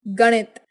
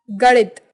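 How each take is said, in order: First: Said in the usual way. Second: Flapped ड़ replacing the N of गणित; Bihari pronunciation. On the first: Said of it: "Hindi उच्चारण". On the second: Shown as a demonstration. Teacher showing Bihari speech, गणित with ड़ for ण. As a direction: say गणित as "garit" with ड़. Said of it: "Bihari उच्चारण".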